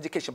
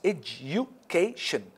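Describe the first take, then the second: First: The word flows as one unit without breaks. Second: The word has breaks between each of its syllables. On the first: "I pronounce it as education" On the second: "if we would like to dissect it into different syllables, it becomes education"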